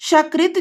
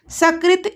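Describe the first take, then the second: First: सकृत said with sh, shakrit, meaning dung; mispronounced shakrit. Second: सकृत with a plain s, sakrit; correct sakrit. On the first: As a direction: open सकृत with sh: sha-krit. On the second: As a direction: say सकृत as sa-krit with a clean s. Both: Shown as a demonstration. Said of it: "ऐसा दोषपूर्णम उच्चारणम".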